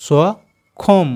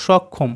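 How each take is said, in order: First: সক্ষম stretched very slowly as one blended word; slow blending of সক্ষম; drawn-out blending. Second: Said in the usual way. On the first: Shown as a demonstration. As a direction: sound out সক্ষম, dragging it long. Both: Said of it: "তিনটেকে আমরা যদি একসাথে উচ্চারণ করি".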